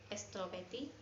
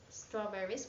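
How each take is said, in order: First: It is said in a Spanish accent. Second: It is said in a plain English accent.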